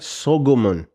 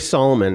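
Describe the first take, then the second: First: The middle consonant is a G sound. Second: The middle consonant is an L sound. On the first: The speaker calls it right. "just put a g. ... It's closer to the original" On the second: The speaker calls it wrong. "don't don't say Solomon"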